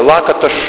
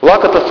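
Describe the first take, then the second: First: The surname is said closer to Hungarian. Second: The surname is said in a Russian-style way.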